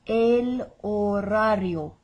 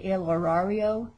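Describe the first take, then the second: First: Slow "horario", H unsounded, R's rolled; silent H, rolled R's. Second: "horario" in a Montana accent, English R's. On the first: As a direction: model "horario" slowly as o-RA-rio with Spanish R's. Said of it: "with a silent H". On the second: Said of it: "that's the Montana way to". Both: Shown as a demonstration.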